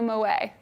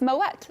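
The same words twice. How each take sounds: First: The final T sound is silent. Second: The final T sound is pronounced. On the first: The speaker calls it wrong. "So no way will you say Moet" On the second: The speaker calls it right. "you pronounce the T because the two dots over the E signify that you pronounce the T. It's Moet"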